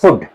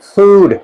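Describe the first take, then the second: First: The vowel is short and clipped. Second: The vowel is drawn out long. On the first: The speaker calls it wrong. "it is not food" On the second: The speaker calls it right. "लंबा करना है"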